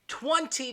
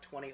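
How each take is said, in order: First: The second T is clearly pronounced, angrily. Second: The second T is dropped, said casually. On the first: The speaker is angry. "If you're angry, you will pronounce the second T in twenty" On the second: The speaker is just talking casually. "if you're just casually speaking"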